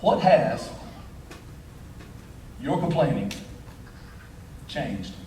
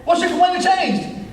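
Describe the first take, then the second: First: Low and drawn out, long pauses; grave, halting question, pitch falling away; solemn closing question. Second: High, insistent question in one run; emphatic pulpit demand; preached challenge. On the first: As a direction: let each phrase sink in, dropping softly at the end. Solemn closing question, later repeated raised. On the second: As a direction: fire the question out at raised pitch. Same question, now preached high. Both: Real, not acted.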